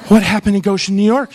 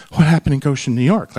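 First: Louder, pressing the question; half-mocking urgent question; mock alarmed repeat. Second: Said in the usual way. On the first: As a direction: demand the answer, alarmed. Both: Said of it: "And I was like".

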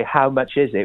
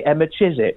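First: Said in the usual way. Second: "Emma Chiswick" as a run-together Essex "how much is it"; Essex pronunciation. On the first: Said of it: "we don't say". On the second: Retold or imitated. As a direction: drop the h and slur "Emma Chiswick" into one Essex phrase. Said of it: "We say, 'Emma Chiswick.'".

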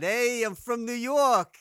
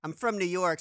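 First: Put-on loud, high, drawn-out New York accent. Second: Said in the usual way. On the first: American guest mocking what his accent is not, exaggerated New York accent. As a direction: ham up a broad New Yorker accent. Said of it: "so it's not, ... I don't speak like that".

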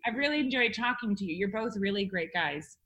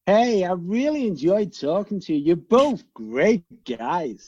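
First: Put-on quick, quiet Liverpool accent; Scouse accent. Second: Put-on American accent. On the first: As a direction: rattle it off in Scouse. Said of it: "your Scouse". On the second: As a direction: play it like a Happy Days character. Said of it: "chotty out of Happy Days".

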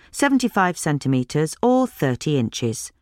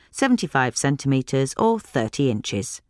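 Both takes have the same delivery.

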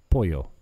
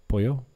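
First: "Pollo" said as po-yo, the double L like a Y; correcting himself, "Pollo" with a Y sound; pollo said right. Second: "Pollo" said like polo, with a plain L sound; showing the wrong way, "Pollo" as polo. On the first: Correcting his Spanish, "Pollo" said as po-yo. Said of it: "Two L's is a Y". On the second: A gringo saying "Pollo" like polo, wrong and flat. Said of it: "Not polo". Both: Shown as a demonstration.

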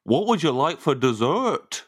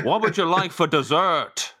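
First: Slow, badly attempted Birmingham accent. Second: Slow, badly attempted Belfast accent. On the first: Host put on the spot without thinking, clumsy Birmingham accent. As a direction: draw it out in a dubious Birmingham accent. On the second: Host put on the spot by the guest, clumsy Belfast accent. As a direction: stretch it out in a dubious Belfast accent.

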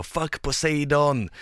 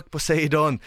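First: Drawn-out mock battle cry, a bit higher; retold yell. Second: Higher, louder mock battle cry; retold yell. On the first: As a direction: yell a defiant challenge at the sea. (halvhjärtat skrik) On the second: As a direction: shout defiance at the sea god. (spelat trotsigt skrik) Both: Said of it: "och jag skriker".

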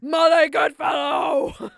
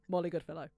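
First: Huge, high, drawn-out mock scream; screaming as dad. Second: Lightly voiced dad's reproach; imitating dad. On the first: Imagining dad's text to the hosts, screamed imitation. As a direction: bellow the name slowly like an outraged dad. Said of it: "Screaming it at us". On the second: Daughter imagining dad's text, restrained dad imitation. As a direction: say the name as dad would, not yet shouting. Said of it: "which will be him going".

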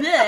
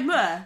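First: "meh" with a flattened "eh" vowel, higher and louder; mock the "meh" attempt; overdone "meh" as in "yeah"; wrong exaggerated version. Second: "meh" said as a short "muh"; correct Geordie version. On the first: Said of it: "it's not like meh". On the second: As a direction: model "meh" gently as "muh". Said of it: "it's like meh". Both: Shown as a demonstration.

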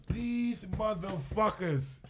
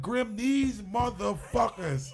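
First: Slow, drawn-out exasperated "These motherfuckers"; disbelief. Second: Slow, louder exasperated "these motherfuckers" to Grim; disbelief. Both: Retold or imitated. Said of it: "I couldn't believe it".

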